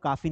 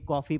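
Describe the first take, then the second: First: The first vowel is an open 'aa' sound. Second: The first vowel is a rounded 'aw' sound. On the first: The speaker calls it wrong. "इसको काफी नहीं पढ़ेंगे" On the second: The speaker calls it right. "कॉफी पढ़ेंगे"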